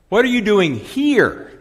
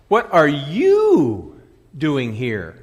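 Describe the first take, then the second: First: The word 'here' carries the main stress. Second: The word 'you' carries the main stress. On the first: Asks why the person is in this place. "A question of availability" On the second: Asks who the person is to be there. "A question of identity"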